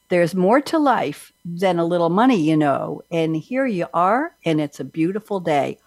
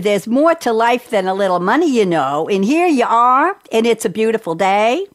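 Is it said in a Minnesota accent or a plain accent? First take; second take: plain; Minnesota. First: It is said in the speaker's plain accent. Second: It is said in a put-on Minnesota accent.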